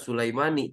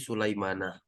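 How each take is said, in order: First: The name ends with an 'i' vowel. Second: The name ends with an 'a' vowel. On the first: The speaker calls it wrong. "maka tidak Sulaimani" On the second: The speaker calls it right. "tapi Sulaimana"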